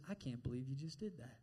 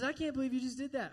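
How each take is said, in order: First: Low, hushed shaming; the devil. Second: High, quick mock disbelief; the devil. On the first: Acted. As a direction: drop low and soft in mock disappointment. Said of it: "he fills you full of shame". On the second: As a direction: heap on shame, incredulous and high-pitched. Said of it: "So he heaps the shame on you".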